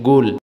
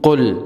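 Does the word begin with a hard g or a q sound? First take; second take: hard g; q sound. First: The word begins with a hard g sound. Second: The word begins with a deep q sound. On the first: This is the everyday spoken form. "अब काफ को गाफ में बदल दिया" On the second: This is the formal classical form. "फुसहा में कहते हैं ना कुल कुल"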